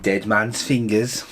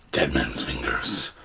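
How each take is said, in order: First: Slow, drawn-out Dead man's fingers; slow reading. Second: Slow, low eerie whisper. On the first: Shown as a demonstration. Announcing the drink name slowly. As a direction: read the label out slowly. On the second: Pretend. Naming the drink in a slow eerie whisper. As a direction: breathe the name like a ghost story.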